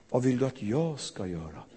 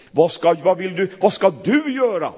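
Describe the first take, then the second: First: Soft, tender question; gentle. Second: Loud, pressing demand. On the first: Preacher voicing the real, gentle Jesus, soft. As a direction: ask quietly, stress "jag". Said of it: "Han sa". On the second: Preacher voicing the wrong, demanding Jesus, louder. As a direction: push the question hard, louder. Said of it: "Det sa han inte". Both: Shown as a demonstration.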